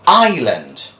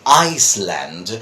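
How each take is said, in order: First: No s sound is pronounced in the middle. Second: An s sound is pronounced in the middle. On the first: The speaker calls it right. "we don't pronounce the S there" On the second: The speaker calls it wrong. "They say Iceland, but that is not the pronunciation"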